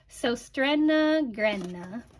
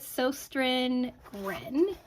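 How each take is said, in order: First: Both words end with an added final vowel. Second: Both words end abruptly without a final vowel. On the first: The speaker calls it right. "the closest that I think I can come" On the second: The speaker calls it wrong. "that is horrible pronunciation"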